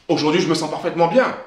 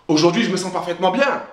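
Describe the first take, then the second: No difference in how they are said.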